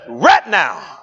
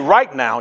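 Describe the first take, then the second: First: It is said in a drawn-out Southern accent. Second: It is said in a plain, neutral accent. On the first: "my grandmother was from the South. ... She said, right now" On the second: "She didn't say right now"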